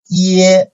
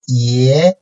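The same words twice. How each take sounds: First: The pitch stays high and level. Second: The pitch rises from mid to high.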